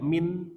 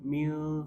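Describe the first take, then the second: First: The final n sound is pronounced clearly. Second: The final n sound is hidden and blurred. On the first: The speaker calls it wrong. "enggak min" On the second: The speaker calls it right. "tapi mil, samar-samar"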